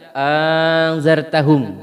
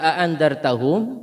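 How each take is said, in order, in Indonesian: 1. Hamzah kedua diganti dengan vokal. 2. Kedua hamzah di awal diucapkan penuh. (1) "mengganti yang kedua" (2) "dengan mentahqiq kedua hamzah"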